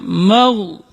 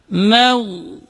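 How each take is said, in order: First: "mau" with a heavy, rounded m; "mau" wrongly thick on the mim; thickened mim mistake. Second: "maghdubi" with a light m, clear a; "maghdubi" with flowing gh and long u; thin mim. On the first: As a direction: darken "mau" towards "mogh". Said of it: "ketika mim ditebalkan". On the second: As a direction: chant "maghdubi" slowly, mim kept thin. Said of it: "Tapi harus dibaca". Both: Shown as a demonstration.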